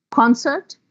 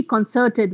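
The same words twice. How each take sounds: First: "Concert" as a noun, CON stressed, higher; CON-cert, weight on the start of "Concert"; stress on first syllable. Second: "concerted" as a verb, CERT stressed; con-CERT-ed, weight on the middle of "concerted"; stress on second syllable. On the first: Teacher giving noun examples, first-syllable stress. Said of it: "If the stress is on the first syllable". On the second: Teacher shifting stress to make a verb, second-syllable stress. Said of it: "Now just shift the syllable". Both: Shown as a demonstration.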